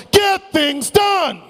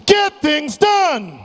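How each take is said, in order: First: High, slow shouted chant; chanted, lead the crowd, belt it out slowly. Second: Slow, high rallying shout; shout with conviction. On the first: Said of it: "to say after me is this". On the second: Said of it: "Say this with conviction". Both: Shown as a demonstration.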